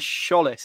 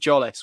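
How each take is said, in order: First: The name starts with an 'sh'-like sound. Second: The name starts with a 'j' sound. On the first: This is the club's official pronunciation. The speaker calls it right. "It's an S-C-H, isn't it, that they go with" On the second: This is the pronunciation the speaker had been using. The speaker calls it wrong. "rather than sort of a Jollis, which I had been going with"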